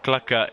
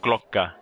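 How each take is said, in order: First: Clucker with a short u, kluh-ker; plain English Clucker. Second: Glocker said with a rounded o, klokker; Glocker pronunciation. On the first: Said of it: "Clucker, that's your new name". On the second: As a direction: Glocker with an open o like Dutch klok. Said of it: "that's your new name, is Glocker". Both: Shown as a demonstration.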